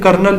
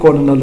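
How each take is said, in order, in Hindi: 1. इसे दो अक्षर में बोला जाता है, जैसे kernel। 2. इसे तीन अक्षर में बोला जाता है, जैसे co-lo-nel। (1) "जो कि गलत प्रोनाउंस करते हैं" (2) "ये बेसिकली कॉलोनल होता है"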